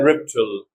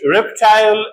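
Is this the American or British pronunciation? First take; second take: American; British. First: The last syllable is reduced, without 'eye'. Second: The last syllable has a full 'eye' vowel.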